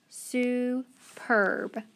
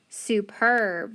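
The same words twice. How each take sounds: First: SUPERB split slowly into "soo", pause, "perb"; teacher breaking SUPERB into soo ... perb; syllable by syllable. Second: Said in the usual way. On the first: Shown as a demonstration. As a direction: sound out SUPERB in two separate syllables. Sounding out a word by syllables.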